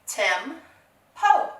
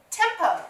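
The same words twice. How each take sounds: First: "Tem-po" split into two separate beats; syllable by syllable. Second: Said in the usual way. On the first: Shown as a demonstration. Teacher blending syllables for pupils, "Tem-po" broken apart. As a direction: say "Tem-po" with a gap between syllables. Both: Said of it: "put those syllables together".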